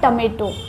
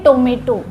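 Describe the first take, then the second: First: The first vowel sounds like 'uh'. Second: The first vowel sounds like 'oh'. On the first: The speaker calls it right. "पर ये होता है" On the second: The speaker calls it wrong. "अब इसे लोग पढ़ते हैं"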